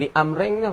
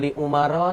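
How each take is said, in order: First: The name ends with an added -in sound. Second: The name ends plainly, with no added ending. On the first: The speaker calls it wrong. "jangan baca li Amrin tu. Tak kena tu" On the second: The speaker calls it right. "Baca li Umar tu"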